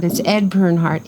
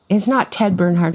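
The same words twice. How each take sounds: First: "Ed" weighted as the corrected name; stress on ED. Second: "Ted" said as the rejected name, with "not" leaning on it; name the mistaken "Ted Bernhardt" to set up the fix; wrong name stressed. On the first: Setting the record straight for the interviewer, stress on "Ed". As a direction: land firmly on "Ed" to fix the error. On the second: Correcting herself to the interviewer, stress on "not Ted". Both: Shown as a demonstration.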